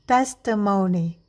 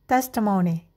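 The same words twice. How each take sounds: First: The word is said slowly. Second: The word is said quickly. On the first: "perlahan terlebih dahulu" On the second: "lakukan lebih cepat"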